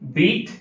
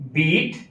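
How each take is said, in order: The two takes are said the same way.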